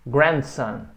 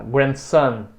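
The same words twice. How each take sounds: First: Grandson stressed on the first syllable, GRAND. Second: Grandson stressed on its second part, SON; wrong stress on SON. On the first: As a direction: put the weight on "grand" in grandson. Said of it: "A sílaba tônica é sempre o grand". (grandson com a tônica em "grand") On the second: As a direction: push the weight onto "son" in grandson. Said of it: "você põe o estresse na segunda parte". (grandson com a tônica errada em "son") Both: Shown as a demonstration.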